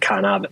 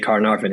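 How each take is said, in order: First: The R sounds are dropped, Australian style. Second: The R sounds are pronounced, American style.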